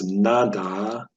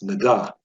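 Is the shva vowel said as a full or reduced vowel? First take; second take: full; reduced. First: The shva is said as a full vowel. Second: The shva is said as a reduced vowel. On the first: The speaker calls it wrong. "it wouldn't be pronounced nada" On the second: The speaker calls it right. "it's nada"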